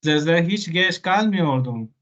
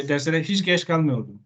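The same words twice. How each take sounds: First: "Dersleri hiç geç kalmıyordum" with a light Colombian sing-song tune; Colombian lilt. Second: "Dersleri hiç geç kalmıyordum" said level and even, no sing-song; flat Turkish tune. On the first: Teacher shows students the Colombian-accented version, mild lilt. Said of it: "un poquito más colombiano". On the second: Teacher models the flat Turkish way for students, level tune. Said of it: "Normalmente diríamos así en plano". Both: Shown as a demonstration.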